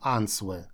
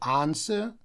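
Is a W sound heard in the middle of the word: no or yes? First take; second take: yes; no. First: A W sound is heard after the N. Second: No W sound is heard after the N. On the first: The speaker calls it wrong. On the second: The speaker calls it right.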